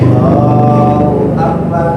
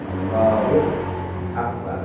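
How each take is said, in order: First: The words are said in one breath. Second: There is a short pause between the words.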